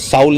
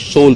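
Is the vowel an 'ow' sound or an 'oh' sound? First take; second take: ow; oh. First: The vowel is an 'ow' sound, as in 'cow'. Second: The vowel is an 'oh' sound, as in 'go'. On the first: The speaker calls it wrong. "इसे साउल नहीं पढ़ेंगे" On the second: The speaker calls it right. "सोल पढ़ेंगे"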